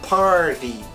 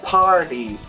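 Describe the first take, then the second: No difference in how they are said.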